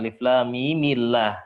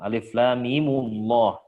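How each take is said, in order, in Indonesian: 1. Setelah m ada vokal i; L pada Allah terdengar tipis. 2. Setelah m ada vokal u; L pada Allah terdengar tebal. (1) "Mim kasih harokat kasroh ... lafaz Allah yang semulanya tafkhim menjadi tarqiq" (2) "pakai dhammah aja ... Allahnya tetap tafkhim"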